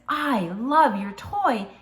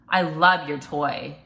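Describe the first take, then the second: First: It is said warmly and with enthusiasm. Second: It is said grudgingly, with a sarcastic tone. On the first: The speaker truly likes the toy. The speaker calls it right. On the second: The speaker does not really like the toy. The speaker calls it wrong.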